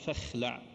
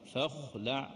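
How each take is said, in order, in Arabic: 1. صوت kh خفيف ورقيق. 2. صوت kh ثقيل ومفخم. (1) "لا نقول" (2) "تبقى دائما محافظة على صفة الاستعلاء"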